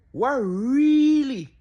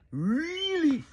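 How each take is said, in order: First: Loud, slow, stretched "really" in disbelief; drawn-out disbelief. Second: "really?" short and higher, questioning; disbelieving question. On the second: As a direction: snap back with a quick, higher "really?". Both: Real, not acted. Stunned reaction to the clip.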